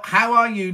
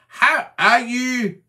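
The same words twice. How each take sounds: First: Said in the usual way. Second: "How are you?" said slowly and carefully, higher and louder; improved how are you. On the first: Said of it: "needs a bit of practice". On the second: Shown as a demonstration. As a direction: stretch out "How are you?" slowly, every word clear. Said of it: "Is that better?".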